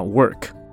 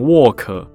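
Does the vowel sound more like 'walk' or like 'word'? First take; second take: like word; like walk. First: The vowel sounds like the one in word. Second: The vowel sounds close to the one in walk. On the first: It is clearly heard as working. The speaker calls it right. "要讲的话work" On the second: It may be heard as walking instead of working. The speaker calls it wrong. "如果讲成work，虽然我听得出你有卷舌有那个r work，可是在英文母语的人耳朵里面，很容易会听起来以为你要讲走路"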